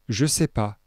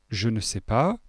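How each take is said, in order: First: The word 'ne' is left out. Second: The word 'ne' is clearly pronounced. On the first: It is casual, informal French. "En français familier" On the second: It is standard everyday French. "En français courant"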